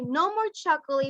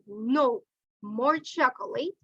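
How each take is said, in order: First: It is said without a pause after no. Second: There is a pause after no.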